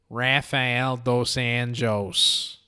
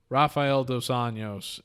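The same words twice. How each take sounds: First: It is said in a Wisconsin accent. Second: It is said in his plain accent.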